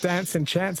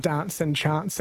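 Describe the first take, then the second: First: Dance and chants with short flat a as in cat; Australian flat a. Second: Dance and chants with long broad ah vowels, dahnce and chahnts; British broad a. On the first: Co-host showing the modern Australian flat a in dance and chants. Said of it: "we embraced dance and chants". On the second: Caller's co-host showing the early British-sounding accent, broad ah vowels. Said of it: "a very British kind of sound". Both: Shown as a demonstration.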